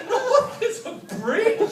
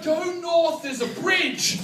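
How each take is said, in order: First: "North" pitched very high, "bridge" drawn out and rising; incredulous echo. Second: Said in the usual way. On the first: Retold or imitated. Lost driver echoing the directions, "North, there's a bridge" as disbelieving question.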